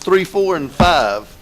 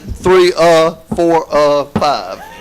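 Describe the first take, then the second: First: The numbers are listed smoothly without hesitation. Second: The numbers are broken up by hesitant pauses.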